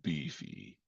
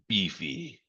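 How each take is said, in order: First: It is said in a much deeper voice. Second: It is said in a normal voice.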